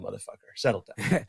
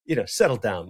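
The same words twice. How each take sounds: First: Quick, softer, lower aside to himself; muttered to self. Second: Said in the usual way. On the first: Real, not acted. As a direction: scold yourself under your breath. Repeats advice to himself.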